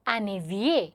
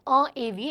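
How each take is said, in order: First: An n sound links into the second word. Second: No n sound links the two words. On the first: The speaker calls it right. "It is एन एविए. ठीक है, इसे लैजो बोलते हैं" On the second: The speaker calls it wrong. "It is नॉट"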